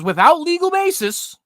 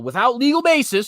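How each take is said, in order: First: "without legal basis" slow, much higher and louder; stressed rereading. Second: Said in the usual way. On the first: Shown as a demonstration. Rereading the OSHA quote to mock it, "without legal basis" slow and loud. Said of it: "he says". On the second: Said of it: "he says, "without legal basis".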